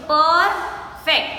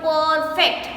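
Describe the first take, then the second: First: "Perfect" split slowly as per, then fect; broken into syllables. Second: Said in the usual way. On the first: Shown as a demonstration. Teacher showing pupils where the word breaks, "Perfect" in slow syllables. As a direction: say "Perfect" in two separated beats. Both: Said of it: "so we break the word".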